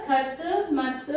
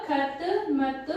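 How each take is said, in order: No difference in how they are said.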